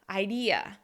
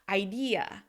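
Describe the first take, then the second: Both takes have the same delivery.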